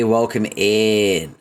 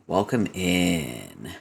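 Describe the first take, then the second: First: Slow, louder welcome with falling tune; drawn-out welcome. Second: Slow, softer welcome with rising tune; soft low welcome. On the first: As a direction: stretch out welcome in. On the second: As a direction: stretch welcome in and lift the end. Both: Real, not acted. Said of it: "welcome in repeated".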